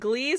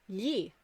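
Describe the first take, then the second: First: It starts with a hard G sound. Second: It starts with a soft y-like sound, no G. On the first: The speaker calls it wrong. "ninety percent of the people in the class would be like" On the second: The speaker calls it right. "is yi, G L I, yi, right?"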